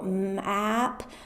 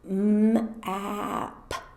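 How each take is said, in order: First: The sounds are said a little faster. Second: The sounds are stretched out very slowly. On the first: "a little faster" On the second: "you say it very slowly like this"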